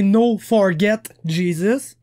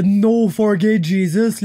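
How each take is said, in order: First: FORGET with a clearly sounded final T; prononciation voulue. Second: FORGET said without the final T, like "for gay"; prononciation mal entendue. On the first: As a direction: land the T at the end of Forget. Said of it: "il voulait dire". (Forget avec le T final bien prononcé) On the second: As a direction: drop the T so Forget sounds like "for gay". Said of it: "même si c'est pas ça qu'il a dit". (Forget prononcé sans T final, comme « for gay ») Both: Shown as a demonstration.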